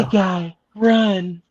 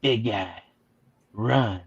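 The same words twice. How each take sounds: First: Joking seductive lady warning; sexy lady voice. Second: Low, soft computer warning; quiet robotic voice, pitched down. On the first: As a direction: lift it into a mock sexy lady. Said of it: "I'll do the sexy lady voice for you". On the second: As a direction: deliver it like a hushed machine. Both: Acted.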